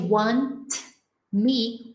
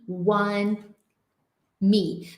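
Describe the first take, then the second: First: The T in want is fully released. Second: The T in want is held, not released. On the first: The speaker calls it wrong. "ao invés de" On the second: The speaker calls it right. "a tendência é segurar o som, não explodir"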